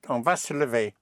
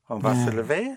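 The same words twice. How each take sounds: First: It is said as a plain statement. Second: It is said with a questioning inflection. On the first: We are going to get up. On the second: Shall we get up?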